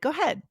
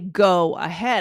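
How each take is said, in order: First: The first vowel of ahead is dropped. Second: The first vowel of ahead is fully pronounced. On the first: "So I took off the "uh" of ahead" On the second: "I didn't say"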